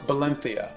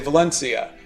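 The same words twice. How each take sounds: First: Valencia is pronounced the native Spanish way. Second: Valencia is pronounced the American English way. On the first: This is how local people say it. The speaker calls it right. "they would say no, it's" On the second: This is how the speaker says it. The speaker calls it wrong. "I would say"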